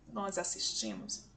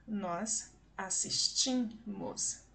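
First: Said in the usual way. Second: "Nós assistimos" very slowly, the TI held long; stress on penultimate syllable. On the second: Shown as a demonstration. Teacher showing the same stress pattern, slow drawn-out "ti" in "assistimos". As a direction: separate and stretch the "ti" in "assistimos". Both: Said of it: "Assim como a palavra assistimos".

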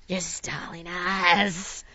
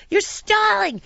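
First: Lower, very slow, stretched words; slow drawn-out accusation. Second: High-pitched indignant accusation; high accusing yell. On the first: Traveller repeating it to the crew, slow lowered accusation. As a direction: draw out every word in mock outrage. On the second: Traveller accusing the crew of stalling, high angry cry. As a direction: throw the accusation out high, in mock outrage. First accusation, acted outburst. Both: Retold or imitated.

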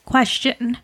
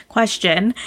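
First: Cracked voice on Question; voice cracking. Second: Said in the usual way. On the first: Real, not acted. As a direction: voice breaks mid-word. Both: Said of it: "Wow, my voice just cracked".

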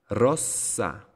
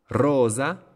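First: Rossa with short O and long held S; double S. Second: Rosa with long O and buzzed S, higher; single S. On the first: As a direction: pause on the S inside rossa. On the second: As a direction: stretch the O in Rosa, no hold on S. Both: Shown as a demonstration. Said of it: "¿Se dan cuenta que hay una pausa?".

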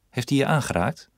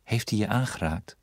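First: Higher, pressing question with hij rising; urgent question. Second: Gentle repeat. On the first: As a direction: press her for an answer. Husband presses wife, urgent. (dringend en hoger gevraagd) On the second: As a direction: ask it again tenderly, hands on her shoulders. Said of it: "legde voorzichtig zijn handen". (zacht en voorzichtig herhaald) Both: Acted.

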